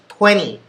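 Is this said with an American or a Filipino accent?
American. It is said with an American accent. The speaker calls it right. "it's twenty"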